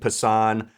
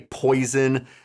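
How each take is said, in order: First: The word is said with an 'ah' vowel, pah-sahn. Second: The word is said like the English word poison. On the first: "that's usually what I end up saying" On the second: "You can't just say poison"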